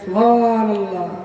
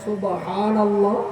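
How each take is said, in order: First: The sounds are pushed out sloppily and blurred. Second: Every sound is pronounced carefully and clearly. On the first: It earns more sin. The speaker calls it wrong. "ঠেলে দেন" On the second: It earns a reward. The speaker calls it right. "উচ্চারণ ঠিক করে করতে পারেন"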